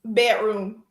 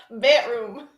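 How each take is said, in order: First: Dropping the d in Bedroom, said like "Betroom"; African American accent. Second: Bedroom again with the d left out, said "pætrum"; African American accent. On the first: Guest showing the one word she says with an accent. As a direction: Bedroom with no d sound, "pætrum". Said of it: "I can say one word like a black person". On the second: Guest repeating her one-word accent demo. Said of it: "'Cause I don't say the D's". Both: Shown as a demonstration.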